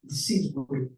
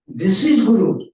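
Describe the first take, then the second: First: Said in the usual way. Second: Louder and slower, every word weighted; slow emphatic restatement. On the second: Shown as a demonstration. Preacher to his disciples, slow emphatic declaration. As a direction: land it firmly on the listeners. Repeats the line to drive it home.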